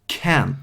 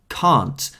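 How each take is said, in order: First: It is said with an American accent. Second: It is said with an English accent.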